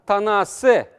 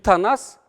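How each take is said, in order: First: The word ends with an added final vowel. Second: The word ends on the consonant s. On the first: The speaker calls it right. "а танасы" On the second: The speaker calls it wrong. "Не танас, а танасы"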